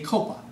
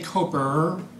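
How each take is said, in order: First: The word ends in a plain open vowel. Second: The word ends with an added r sound. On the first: The speaker calls it right. "I say Copa. Now say it right" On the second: The speaker calls it wrong. "I don't say Coper"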